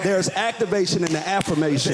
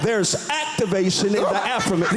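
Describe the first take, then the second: First: It is said in a plain conversational voice. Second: It is said in a fiery preacher's style.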